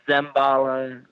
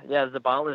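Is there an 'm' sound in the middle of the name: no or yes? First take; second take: yes; no. First: The name is said with an m sound. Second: The name is said without an m sound. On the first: The speaker calls it wrong. "I've been called Zembala" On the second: The speaker calls it right. "Zabala is right"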